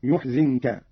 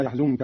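First: "يحزنك" slowly as yuh-zin-ka; u after the ya, i after the zay in "يحزنك"; slow demonstration of "يحزنك" as yuhzinka; damma and kasra. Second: Said in the usual way. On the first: Shown as a demonstration. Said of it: "قرأ قالون بضم الياء وكسر الزاي". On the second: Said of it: "بضم الياء وكسر الزاي".

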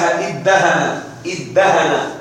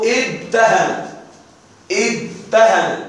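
First: ادهن joined as iddahana, doubled d, no t; merged doubled dal. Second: ادهن drawn out and split, id... tahana; underlying form with ta. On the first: Teacher showing the result after assimilation, doubled pronunciation. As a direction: say ادهن with one long d. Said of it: "وأضغمت الدال في ماذا؟". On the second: Teacher showing the origin on pattern ifta'ala, slow split pronunciation. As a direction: sound out ادهن slowly with t after d. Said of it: "أصله ادهن". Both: Shown as a demonstration.

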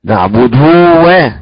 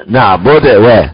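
First: "نعبد و" with the final u stretched into a long waw; over-lengthened damma. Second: "نعبد و" with the damma on the dal weakened and cut short; wrong vowel demo. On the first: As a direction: show the mistake of drawing out "نعبد" to "naʕbuduu". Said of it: "نجيب واو". (مثال خاطئ بإشباع الضمة واوًا في "نعبد") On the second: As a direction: show the mistake of a slack final vowel in "نعبد". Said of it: "لا نقول". (مثال خاطئ بإضعاف ضمة الدال في "نعبد") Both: Shown as a demonstration.

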